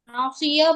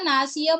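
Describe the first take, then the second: First: The s sound is heavy and emphatic. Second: The s sound is plain and light. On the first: The speaker calls it right. "नासिया पढ़ा जाएगा ना" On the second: The speaker calls it wrong. "पढ़ देंगे तो सीन की आवाज आएगी"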